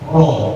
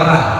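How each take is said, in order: First: The r sound is thick and heavy. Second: The r sound is thin and light. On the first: The speaker calls it right. "membaca roh tebal" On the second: The speaker calls it wrong. "nggak bisa baca roh tebal, gitu ya, bacanya ra"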